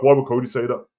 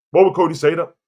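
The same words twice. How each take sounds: First: Said in the usual way. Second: "Why would Cody say that?" repeated, WHY hit higher and harder; emphatic repeat. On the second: Real, not acted. Pressing viewers on Cody's words, emphatic repeat. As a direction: drive the question home on "Why".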